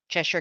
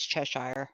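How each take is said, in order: First: The word is said quickly and run together. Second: The word is said slowly and fully. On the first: This is how people say it referencing the cat. "they'll speed it up" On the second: This is the proper pronunciation. "but it's Cheshire"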